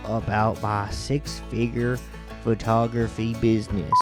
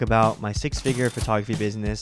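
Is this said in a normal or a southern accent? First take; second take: southern; normal. First: It is spoken in a put-on southern accent. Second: It is spoken in his ordinary everyday accent. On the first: "Can I use my southern accent?" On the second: "can we just get the normal one out here?"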